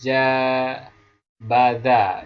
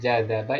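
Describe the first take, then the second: First: The b sound comes before the d. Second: The d sound comes before the b. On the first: This is a dialect's reversed form. "itu yang kebalik atau dibalik ya" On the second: This is the original form. "itu yang asli"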